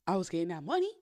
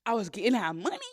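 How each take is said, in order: First: Said in the usual way. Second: Louder, punching the word money; emphatic repeat. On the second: Shown as a demonstration. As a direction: hit money hard the second time.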